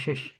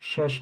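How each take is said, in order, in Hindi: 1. स्वर 'i' जैसा है। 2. स्वर 'a' जैसा है। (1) "शश नहीं शिश" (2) "शश नहीं"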